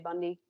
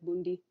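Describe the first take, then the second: First: The name is said without a German accent. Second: The name is said with a German accent. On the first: This is how the speaker would say it. "but I would say Bundy" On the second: This is how the audiobook narrator says it. "in his German accent in the audiobook, it sounds like Bundi"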